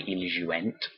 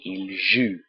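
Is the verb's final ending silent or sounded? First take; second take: sounded; silent. First: The verb ends with an extra spoken ending sound. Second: The verb ends without a spoken ending sound. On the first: The speaker calls it wrong. "You don't say ils jouent" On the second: The speaker calls it right. "we don't hear the E N T at all"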